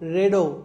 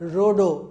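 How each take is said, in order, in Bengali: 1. প্রথম স্বরধ্বনিটি 'e' এর মতো শোনায়। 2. প্রথম স্বরধ্বনিটি 'o' এর মতো শোনায়।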